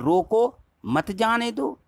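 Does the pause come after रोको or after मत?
after रोको. There is a pause right after रोको. Stop them; do not let them go. "यहां जाने नहीं देना है"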